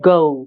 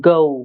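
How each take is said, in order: Both takes have the same delivery.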